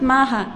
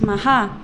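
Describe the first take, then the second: First: The stress is on the first syllable. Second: The stress is on the second syllable. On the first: The speaker calls it wrong. "It's not Maha" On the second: The speaker calls it right. "it's Maha. You land on the second syllable because it is long"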